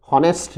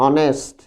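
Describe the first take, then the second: First: হনেস্ট said with a clear h at the start; the wrong version, breathe an h before হনেস্ট; wrong h in honest. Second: অনেস্ট said with no h sound, starting on the vowel; silent h in honest. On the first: (ভুলভাবে এইচ সহ হনেস্ট) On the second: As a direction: drop the h: অনেস্ট, not a breathy h start. (এইচ ছাড়া অনেস্ট উচ্চারণ) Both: Shown as a demonstration. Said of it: "হনেস্ট না কিন্তু".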